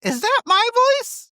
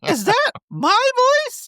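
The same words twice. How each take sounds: First: Tiny high-pitched squeaky cat voice; high cartoon kitten asking a question; Yzma turned cat. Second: Very high squeaky cat voice, pausing after THAT; tiny cartoon kitten, rising on THAT; Yzma turned cat. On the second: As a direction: squeak the question, leaning on THAT. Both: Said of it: "turned into a cat and she goes".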